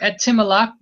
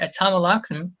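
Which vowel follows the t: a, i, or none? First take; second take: i; a. First: An i vowel is heard between the t and m. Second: An a vowel is heard between the t and m. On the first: "You don't have to say" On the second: "You don't have to say"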